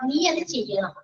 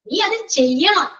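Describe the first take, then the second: First: It is said in a mild, plain tone. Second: It is said in a forceful, insistent tone. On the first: It is advice that should be followed. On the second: It is an obligation that must be done.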